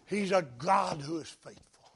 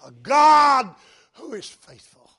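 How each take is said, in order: First: Said softly, almost to himself. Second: Loud, high proclamation; proclaimed loudly. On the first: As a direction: ease it out quietly before the build. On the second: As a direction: lift it into a triumphant cry. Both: Shown as a demonstration. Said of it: "repeats the line louder".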